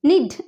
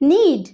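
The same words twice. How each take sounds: First: The vowel is short, like in 'nid'. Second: The vowel is long, like in 'need'. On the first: The speaker calls it wrong. "নিড এরকম ভাবে বলি না আমরা" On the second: The speaker calls it right. "তাহলে N double ই D তখন কিরকম হচ্ছে নিড"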